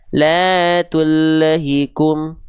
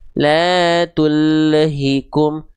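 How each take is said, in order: No difference in how they are said.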